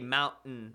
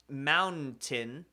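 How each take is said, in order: First: The middle T is dropped. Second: The middle T is clearly pronounced. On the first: "we say mountain. We don't pronounce N's" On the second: "you should say"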